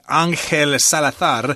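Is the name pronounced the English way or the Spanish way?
Spanish. The name is said with Spanish pronunciation. "I suppose you'd pronounce that Angel Salazar"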